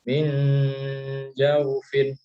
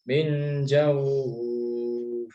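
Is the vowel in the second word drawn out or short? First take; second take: short; drawn out. First: The vowel in the second word is short. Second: The vowel in the second word is drawn out. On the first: The reading continues without stopping. "lunak ya" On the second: The reader stops on this word. "dibaca agak panjang"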